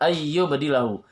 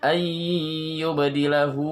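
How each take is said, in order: First: The nasal sound is cut short. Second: The nasal sound is held for two beats. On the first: The speaker calls it wrong. "Jangan membaca ayyubadilahu" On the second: The speaker calls it right. "ditahan dua harokat"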